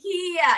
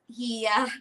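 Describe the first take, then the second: First: The word is said without a flat tone. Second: The word is said with a flat tone. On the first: It is a swear word. The speaker calls it wrong. "it's a different word. It's a swear word in Thai" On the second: It means older brother. The speaker calls it right. "Hia with a flat tone"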